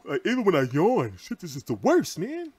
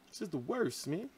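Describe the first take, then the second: First: Strained by stomach pain while yawning; pained groaning complaint, last word higher. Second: Much softer, drained mutter; tired, quiet complaint; worn out. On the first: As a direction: wince through a painful yawn. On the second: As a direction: let it fall away, spent from the pain. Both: Real, not acted. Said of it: "My stomach is killing me".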